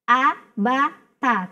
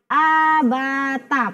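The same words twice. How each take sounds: First: The vowels are kept short and crisp. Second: The vowels are drawn out long. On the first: The speaker calls it right. "maka tegaskan a ba ta" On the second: The speaker calls it wrong. "dibaca a ba ta, padahal dia belum masuk ke tanda mat"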